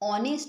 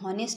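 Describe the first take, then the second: First: The word begins with a vowel sound. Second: The word begins with an h sound. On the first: The speaker calls it right. "অনেস্ট বলি" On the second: The speaker calls it wrong. "হনেস্ট বলি না"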